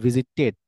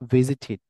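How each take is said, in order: First: The ending sounds like a full ted. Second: The ending does not sound like ted. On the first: The speaker calls it wrong. "এ মানে টেড, এরকম বলবে" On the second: The speaker calls it right. "But it's not the টেড"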